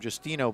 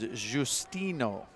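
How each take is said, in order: First: The name is said in a plain way. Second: The name is said in a fancier way. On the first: The speaker calls it wrong. "We've been calling him Justino" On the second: The speaker calls it right. "but it's Justino. If you just want to get a little fancier with the juice out"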